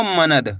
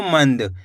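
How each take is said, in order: First: मनद read as three syllables, म-न-द, with a full न vowel; wrong split reading. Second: मंद said fast as one syllable, nasal न clipped short; correct quick reading. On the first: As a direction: spell out मनद slowly, syllable by syllable, as the mistake. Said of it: "मनद पढ़ोगे तो ना का पूरा उच्चारण निकल जाएगा". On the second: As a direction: run मंद together quickly, no vowel after म. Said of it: "यानी कि तेजी के साथ आपको उच्चारण निकालना है". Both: Shown as a demonstration.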